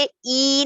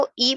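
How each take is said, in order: First: ای drawn out into "eee"; slow, lengthened ای; stretched long i. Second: ای said as a brief short "i"; quick ای, not dragged; short unstretched i. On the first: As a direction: hold ای long, as the mistake. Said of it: "ای نہیں پڑھیں گے". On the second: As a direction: keep ای short and clipped to one beat. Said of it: "اس کو کھینچنا نہیں ہے". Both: Shown as a demonstration.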